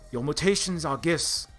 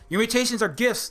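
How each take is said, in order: First: It is spoken in a put-on British accent. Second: It is spoken in a generic American accent. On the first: "badly imitating Patrick Stewart's Oxbridge thespian British" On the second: "I can do a Halle Berry generic American accent"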